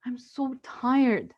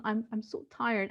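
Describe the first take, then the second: First: Slow, worn-out sigh of a line; tired. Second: Softer, weary admission; tired. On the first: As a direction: drag it out, exhausted. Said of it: "And so I told him". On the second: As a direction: say it quietly, worn out. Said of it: "She told her two-year-old son". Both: Retold or imitated.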